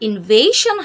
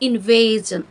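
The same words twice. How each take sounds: First: The ending is said with a voiceless 'shun' sound. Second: The ending is said with a voiced 'zhun' sound. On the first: The speaker calls it wrong. "উচ্চারণটা আসলে ইনভেশন হবে না" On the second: The speaker calls it right. "শন উচ্চারণ না করে জন উচ্চারণ করব"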